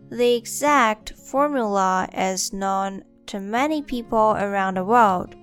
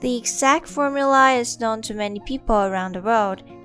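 First: It is said slowly. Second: It is said at normal speed.

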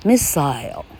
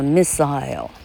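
First: It is said with a British pronunciation. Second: The same.

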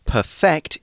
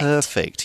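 First: The stress is on the second syllable. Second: The stress is on the first syllable.

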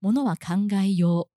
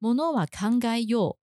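First: The pitch does not fall toward the end. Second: The pitch falls toward the end.

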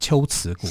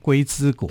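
First: The name uses the older classical readings. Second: The name uses the everyday character readings. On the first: The speaker calls it right. "那其实在古语上面要念龟兹国" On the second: The speaker calls it wrong. "很多人会念成龟兹国"

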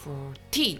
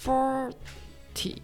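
First: The stress is on the last syllable. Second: The stress is on the first syllable.

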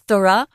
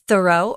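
First: It is said with a British pronunciation. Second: It is said with an American pronunciation. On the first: "as you like to say" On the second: "We say thorough, which is so much longer"

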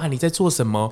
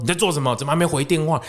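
First: It sounds gentle and caring. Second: It sounds irritated and annoyed.

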